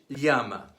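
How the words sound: The word is said in a Castilian Spanish accent. "Castilian Spanish"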